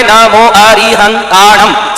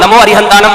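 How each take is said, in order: First: "नमो अरिहंतानम" slowly, each syllable separate; careful teaching demo of "नमो अरिहंतानम", slowed right down. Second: Said in the usual way. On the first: Shown as a demonstration. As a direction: stretch and separate every sound of "नमो अरिहंतानम". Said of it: "सात शब्द सात जगह touch". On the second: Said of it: "आपके देखो तीन जगह में".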